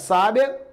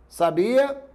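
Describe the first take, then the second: First: The stress is on the first syllable. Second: The stress is on the second syllable.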